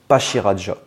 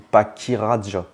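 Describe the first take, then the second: First: The second syllable starts with a 'sh' sound. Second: The second syllable starts with a 'k' sound. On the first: "on le prononce Pachiraja. C'est un pachyderme" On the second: "est-ce qu'on le prononce Pachiraja ou Pakiraja?"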